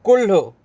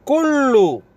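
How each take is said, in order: First: कुल्लू said the Hindi way, short; Hindi pronunciation. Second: कुल्लू said the Arabic way, long held L; Arabic pronunciation. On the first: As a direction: say कुल्लू quickly, as the everyday Hindi word. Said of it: "Hindi में बोलते हैं ना". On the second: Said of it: "इसी को बोलेंगे". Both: Shown as a demonstration.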